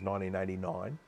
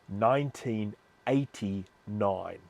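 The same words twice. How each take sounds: First: It is said in an Australian accent. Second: It is said without an Australian accent. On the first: "my Australian accent" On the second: "I'll say that again without my Australian accent"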